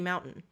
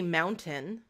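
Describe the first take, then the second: First: The middle t sound is dropped. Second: The middle t sound is clearly pronounced. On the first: "I say mountain. So I lose the T" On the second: "I don't say mountain"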